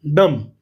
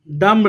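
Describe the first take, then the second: First: "डम्ब" ending on a hummed M; correct silent B. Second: "डम्ब" ending on an audible B; wrong sounded B. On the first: Teacher giving the child the answer, "डम्ब" pronounced with B silent. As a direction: say "डम्ब" as "dum", no B. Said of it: "इसको क्या पढ़ना है?". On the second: Teacher warning a child, "डम्ब" mispronounced with the B sounded. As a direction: say "डम्ब" with the final B released. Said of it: "डम्ब नहीं पढ़ना बेटा". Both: Shown as a demonstration.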